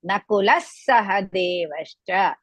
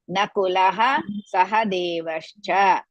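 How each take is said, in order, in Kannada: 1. ಮೊದಲ ಪದವು 's' ಧ್ವನಿಯಲ್ಲಿ ಕೊನೆಗೊಳ್ಳುತ್ತದೆ. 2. ಮೊದಲ ಪದವು ಉಸಿರಿನಿಂದ ಕೂಡಿದ 'ha' ಧ್ವನಿಯಲ್ಲಿ ಕೊನೆಗೊಳ್ಳುತ್ತದೆ.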